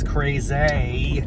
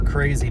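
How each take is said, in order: First: "crazy" drawn out, stress moved onto the second syllable; different inflection on crazy. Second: Said in the usual way. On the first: Shown as a demonstration. Yogi finding a new word for crazy, stress on the last syllable of "crazy". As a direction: say "crazy" as cray-ZAY, stretching the ending. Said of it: "a different inflection". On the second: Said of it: "What if I just use the same word".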